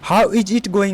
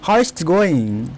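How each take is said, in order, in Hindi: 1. 'Is it' को दो पूरे शब्दों की तरह बोला जाता है। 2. 'Is it' छोटा होकर 'it's' बन जाता है। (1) "हाउ इज इट गोइंग लिखा हुआ है" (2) "इसको शॉर्ट में बोलेंगे"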